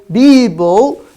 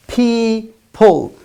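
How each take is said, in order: First: Loud, slow "Bible" for people; B replacing both P sounds in "Bible". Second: Very slow "people", split into two syllables; "people" drawn out, each P puffed; clear P sounds. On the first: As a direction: mispronounce people as "Bible" with voiced B. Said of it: "It's wrong". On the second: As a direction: model "people" syllable by syllable with aspirated P. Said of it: "If you say Bible". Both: Shown as a demonstration.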